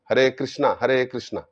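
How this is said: Krishna is said the non-Bengali way, ending in 'aa'. "তারা বলবে"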